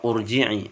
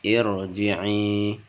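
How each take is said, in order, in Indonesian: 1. Kata ini diawali dengan vokal u. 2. Kata ini diawali dengan vokal i. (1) "atau urji'i" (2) "cara membaca dengan irji'i"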